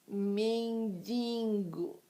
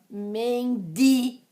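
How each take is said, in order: First: An extra nasal sound is added mid-word. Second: No extra nasal sound is added mid-word. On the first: The speaker calls it wrong. "essas duas palavras são daquele tipo de palavra que dói no meu ouvido" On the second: The speaker calls it right. "o correto é mortadela, mendigo"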